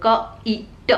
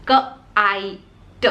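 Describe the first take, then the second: First: क ई ट sounded out, ई as a short i; teacher sounding out क ई ट for kit. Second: क आई ट sounded out with pauses, आई as a full long eye; teacher sounding out क आई ट for kite. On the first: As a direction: segment क ई ट letter by letter. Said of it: "जब किट आप बोलते हो". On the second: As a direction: stretch आई between क and ट. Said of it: "यानी पीछे ई लग गया". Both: Shown as a demonstration.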